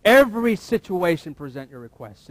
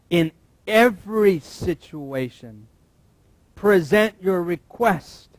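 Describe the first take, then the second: First: Said in the usual way. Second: Slow and loud, every word weighted; slow emphatic reading. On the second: Shown as a demonstration. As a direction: lay each word down slowly.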